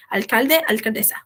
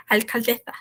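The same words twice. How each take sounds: First: "alcaldesa" with a clean ordinary S sound; plain hissed S in "alcaldesa", no lisp; normal S. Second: "alcaldesa" with the S said as a lisped th; tongue between the teeth on the S of "alcaldesa". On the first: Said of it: "se fala alcaldesa normal, com som de S". ("alcaldesa" com som de S normal) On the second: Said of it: "tenho mania de botar, é, sempre que for fazer som de S". ("alcaldesa" com a língua entre os dentes no S) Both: Shown as a demonstration.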